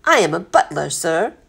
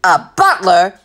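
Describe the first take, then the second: First: Measured, matter-of-fact reply; composed butler. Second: Loud incredulous captain; roaring. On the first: Butler stating his calling to the captain, composed. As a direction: answer with mild dignity. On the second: Captain astonished to hear he has a butler aboard, roaring. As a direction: roar it back in disbelief. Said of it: "the captain roared". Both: A narrator's reading.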